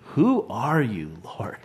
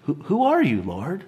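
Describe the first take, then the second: First: It sounds amazed and full of wonder. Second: It sounds puzzled and questioning.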